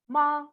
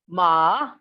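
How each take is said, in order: First: The pitch stays high and level. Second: The pitch dips low then rises. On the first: It means mother. "with high level pitch" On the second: It means horse. "with a low dipping, ... falling then rising"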